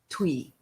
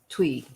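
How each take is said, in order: First: The name ends on a vowel sound. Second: The same.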